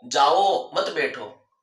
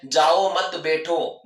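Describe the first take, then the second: First: जाओ held, pause, then मत बैठो together; slow demo, जाओ set apart from मत बैठो; pause after जाओ. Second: जाओ मत grouped together, then बैठो; slow demo, बैठो set apart from जाओ मत; pause after मत. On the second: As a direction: break the phrase after मत, slowly. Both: Shown as a demonstration. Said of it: "सुनने वाला अलग अलग अर्थ निकालता है".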